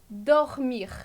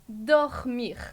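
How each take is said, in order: Both takes have the same delivery.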